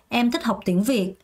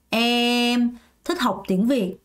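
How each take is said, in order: First: It runs as one unbroken phrase. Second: There is a break after the first word. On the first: "한 문장으로" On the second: "주어 수로 나눠서"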